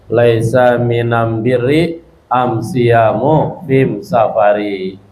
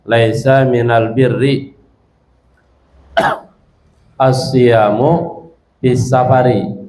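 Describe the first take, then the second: First: The article is pronounced with an m sound. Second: The article is pronounced with an l sound. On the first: This is the Himyar dialect form of the article. "bukan dengan alif lam tapi dengan am" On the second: This is the common form of the article. "kalau pakai alif lam"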